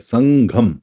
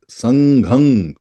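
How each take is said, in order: First: It ends with the lips closed on m. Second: It ends in an open nasal that rings on. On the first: "हलंत वाला मैं है वो आवाज को बंद कर देता है" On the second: "अंग जो है वो आवाज दूर तक देता है"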